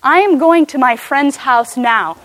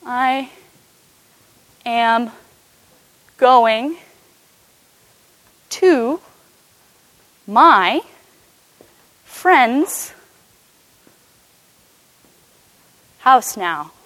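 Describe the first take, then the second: First: Said in the usual way. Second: Each word set apart by long pauses; slow word by word. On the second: Shown as a demonstration. Teacher spells out the English sentence for the congregation, slow word by word. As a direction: lay out the sentence one word at a time for the church. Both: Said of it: "if you wanted to say".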